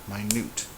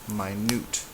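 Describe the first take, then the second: Both takes have the same delivery.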